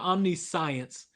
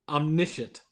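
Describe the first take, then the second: First: The word is sounded out the way it is spelled. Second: The word is said in its usual spoken form. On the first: The speaker calls it wrong. "it's spelled omniscience" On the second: The speaker calls it right. "but it's pronounced omniscient"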